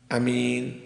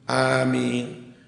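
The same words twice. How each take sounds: First: The first vowel is said short. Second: The first vowel is said long. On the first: "Yang pertama al-qasru dibaca pendek piye?" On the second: "Wal maddu dan dibaca panjang, gimana?"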